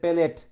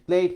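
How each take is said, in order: First: A vowel separates the first two consonants. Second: The first two consonants are said together. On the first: "বলতেছে পেলেট" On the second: "প্লেট না বলে"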